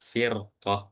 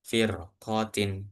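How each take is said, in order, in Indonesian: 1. Kata ini berakhir dengan bunyi 'h' yang lembut. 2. Kata ini berakhir dengan suku kata 'tin' penuh. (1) "lupa di wakafin" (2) "itu kalau dibaca wasal"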